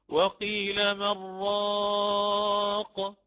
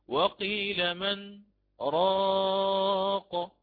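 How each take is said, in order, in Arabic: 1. Man يتصل مباشرة بـ raq دون وقفة. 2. توجد وقفة قصيرة بعد man قبل raq. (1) "بالإدغام" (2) "يقف على النون الساكنة من كلمة من"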